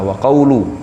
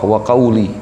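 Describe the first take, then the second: First: The word ends with a short u vowel. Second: The word ends with a short i vowel. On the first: The phrase starts a new sentence as its subject. "boleh juga dibaca marfu', sebagai mubtada" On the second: The phrase is joined to the preceding word as its complement. "bil kasr, dibaca kasroh"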